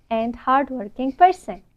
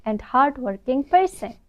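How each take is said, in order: Both takes have the same delivery.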